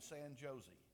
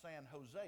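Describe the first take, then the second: First: The J in Jose is a hard J sound. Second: The J in Jose sounds like an H. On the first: The speaker calls it wrong. "that's not really the way we pronounce it in California" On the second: The speaker calls it right. "that's pronounced San Jose. He said, the J's sound like H's"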